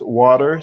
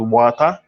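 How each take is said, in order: First: Water is said in an American accent. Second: Water is said in a San Andrés island accent.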